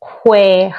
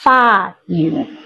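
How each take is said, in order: First: It is said in Taiwanese. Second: It is said in Cantonese.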